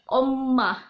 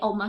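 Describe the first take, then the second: First: The m sound is held long and stressed. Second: The m sound is short and light. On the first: The speaker calls it right. "kalau misalnya di Korea ada penekanan di M-nya" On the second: The speaker calls it wrong. "Oma itu kalau kita di sini, oma kita gitu kan"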